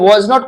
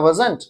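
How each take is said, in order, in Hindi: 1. यह दो पूरे शब्दों में बोला जाता है। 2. यह एक छोटे, संक्षिप्त शब्द में बोला जाता है।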